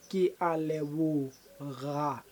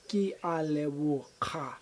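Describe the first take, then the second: First: The last syllable begins with a soft g sound. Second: The last syllable begins with a hard k sound. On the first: The speaker calls it right. "it's not ka, it's ga. At the end" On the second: The speaker calls it wrong.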